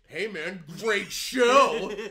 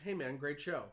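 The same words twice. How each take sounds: First: It is said with added, loaded inflection. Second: It is said plainly, without added inflection. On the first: The compliment sounds insincere. "You add inflection to it" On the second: It is a sincere compliment. "he didn't say somebody wrote on the page"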